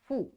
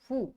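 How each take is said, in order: First: The vowel sounds like a long u. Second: The vowel sounds like a long u.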